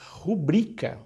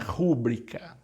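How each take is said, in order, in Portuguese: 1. O acento está na segunda sílaba. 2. O acento está na primeira sílaba. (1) "o acento ali é oculto, está lá no i, não está no u" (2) "Não é rúbrica"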